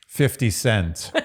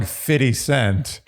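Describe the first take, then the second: First: Fifty cent with every t crisply sounded; overly proper pronunciation. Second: "fifty" slurred to "fiddy" in fifty cent; slangy pronunciation. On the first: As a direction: say fifty cent very properly, "fif-tee sent". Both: Shown as a demonstration. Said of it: "to say shaft very appropriately is ridiculous".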